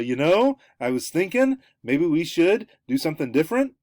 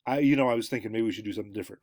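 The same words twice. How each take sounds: First: "thinking", "should" and "different" each swung up high like questions; rising intonation. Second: Said in the usual way. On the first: Shown as a demonstration. Lecturer demonstrating gendered speech that questions everything, rising intonation. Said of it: "when you have that rising intonation". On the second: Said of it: "It's a total, a, a, a different".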